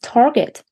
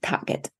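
First: Target is said with an American accent. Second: Target is said with a German accent.

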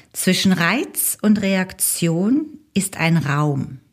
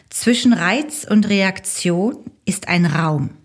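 Both takes have the same delivery.

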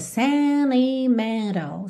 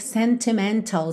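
First: The T sounds are dropped after the N. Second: The T sounds are clearly pronounced. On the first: "a gente tira o T e liga no N" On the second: "Você pode dizer sentimental sem problema nenhum"

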